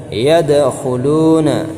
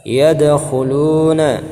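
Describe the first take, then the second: No difference in how they are said.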